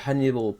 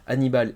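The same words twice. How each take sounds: First: It is said with an English accent. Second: It is said with a French accent. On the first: The speaker calls it wrong. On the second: The speaker calls it right.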